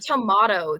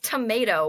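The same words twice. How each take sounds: First: It is said with a British-sounding pronunciation. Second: It is said with an American-sounding pronunciation. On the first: The local way of speaking has crept in. The speaker calls it wrong. "I said tomato the other day" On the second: This is the speaker's usual way of saying it. The speaker calls it right. "It's tomato"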